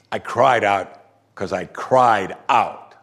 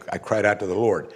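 First: Slow, drawn-out weight on "I cried out"; emphatic, emotional. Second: Said in the usual way. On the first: Shown as a demonstration. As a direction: lean hard and slowly on each "cried out". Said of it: "emphatic, emotional". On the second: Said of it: "It just means a natural way".

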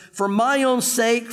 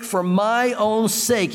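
First: Slow, weighty stress on own; slow emphasis. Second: Even slower, stress on my; slower repeat. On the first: Preacher stressing God's words to Israel slowly. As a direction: dwell on "own" in "For my own sake". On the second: Preacher repeating the phrase for weight, slowly. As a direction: lean on "my" in "for my own sake". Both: Shown as a demonstration. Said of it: "he says it twice".

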